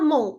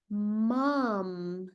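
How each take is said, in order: First: The word ends in a nasal vowel, lips open. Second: The word ends with the lips closed on m. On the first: The speaker calls it wrong. "É a mesma coisa de falar embigo em português. Tá feio!" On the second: The speaker calls it right. "Arruma esse trem"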